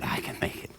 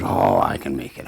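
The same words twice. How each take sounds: First: Near-whispered, much softer gasp; breathy exhausted whisper; breathless effort. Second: A low, strained, lightly voiced push; low strained effort. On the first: Acted. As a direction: squeeze it out on the last breath. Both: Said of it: "He says".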